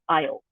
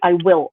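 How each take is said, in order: First: It is said as one contracted syllable. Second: It is said as two full words. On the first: "I'm going to say I'll" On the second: "I'm not going to say I will"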